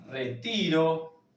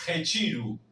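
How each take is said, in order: First: Said in the usual way. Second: Rechiru with a chi and a final U; Portuguese retiro. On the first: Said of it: "idéntico al español". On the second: Shown as a demonstration. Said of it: "La T con la I se va a leer chi".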